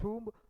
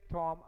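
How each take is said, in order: First: It is said with a non-Indian pronunciation. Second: It is said with an Indian pronunciation.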